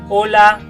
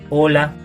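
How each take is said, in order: First: The word is said at a high pitch. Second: The word is said at a middle pitch.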